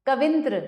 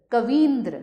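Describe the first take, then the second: First: कविंद्र with a short i; कविंद्र as ka-vin-dra. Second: Said in the usual way. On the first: Shown as a demonstration. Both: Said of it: "संधि संबंधी अशुद्धियाँ".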